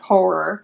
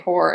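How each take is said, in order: First: The middle R sound is clear and emphasized. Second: The middle R sound is weak and unclear. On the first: The speaker calls it right. "trying to like emphasis the double R sound" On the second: The speaker calls it wrong. "I will say horror instead of"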